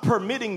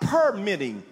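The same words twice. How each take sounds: First: The stress is on the second syllable. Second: The stress is on the first syllable. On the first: Someone is allowed to act. The speaker calls it wrong. "I'm not telling you to stop permitting the devil" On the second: Someone is issued a permit. The speaker calls it right. "You're giving him a permit"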